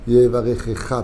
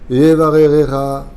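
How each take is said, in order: First: The middle consonants are said as kh sounds. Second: The middle consonants are said as r sounds. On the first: The speaker calls it right. "peut-être" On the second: The speaker calls it wrong. "Qu'est-ce qu'il dit?"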